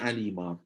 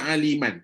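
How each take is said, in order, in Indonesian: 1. Kata itu berakhir dengan vokal panjang. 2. Kata itu berakhir dengan bunyi n.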